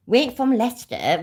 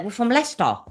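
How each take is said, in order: First: Leicester said as Ly-ces-ter, wrongly; mispronounced Leicester as outsiders say it. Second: Leicester said short as Lester; proper local Leicester. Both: Shown as a demonstration.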